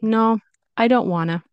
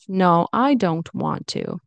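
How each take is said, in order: First: The words 'want to' are reduced to 'wanna'. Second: The words 'want to' are fully pronounced. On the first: The refusal sounds light and less aggressive. "But more light, Sounds less aggressive to me" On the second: The refusal sounds aggressive or mean. "That could be aggressive or can sound mean"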